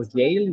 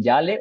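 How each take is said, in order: First: "Yale" as one English syllable; English-style pronunciation. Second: "Yale" read as spelled, in two syllables; Spanish-style pronunciation. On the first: Presenter offering the other reading of the name, English-style pronunciation. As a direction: say "Yale" the English way, rhyming with "pale". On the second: Presenter unsure of a journalist's name, Spanish-style pronunciation. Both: Shown as a demonstration. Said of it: "no sé cómo se pronuncia".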